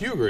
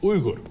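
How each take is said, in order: First: The name is said with an American pronunciation. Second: The name is said with a Turkish pronunciation. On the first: The speaker calls it wrong. "is actually not pronounced Uyghur" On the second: The speaker calls it right. "In Turkish, it's Uyghur"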